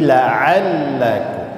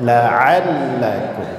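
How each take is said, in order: Both takes have the same delivery.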